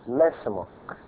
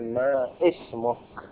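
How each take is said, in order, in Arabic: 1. تُحذف الهمزة وتتصل الكلمتان. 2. تُلفظ الهمزة قبل الكلمة الثانية. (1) "فإنها تختفي" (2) "ما قلنا"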